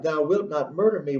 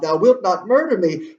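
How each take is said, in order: First: Said in the usual way. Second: High, loud cry of alarm. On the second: Acted. Gertrude to Hamlet as he threatens her, crying out. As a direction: raise the voice in acted protest. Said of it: "she cries out".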